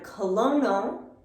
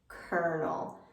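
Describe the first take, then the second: First: The first syllable is said with an L sound. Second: The first syllable is said with an er sound. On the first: The speaker calls it wrong. "we don't pronounce this word colono" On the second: The speaker calls it right. "We make an er sound"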